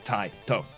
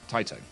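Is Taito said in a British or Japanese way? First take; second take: Japanese; British. First: It is said the Japanese way, syllables enunciated. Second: It is said the British way, letters run together.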